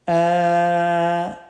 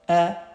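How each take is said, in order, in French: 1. La voyelle est longue, allongée. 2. La voyelle est courte et brève.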